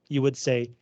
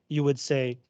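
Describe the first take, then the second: No difference in how they are said.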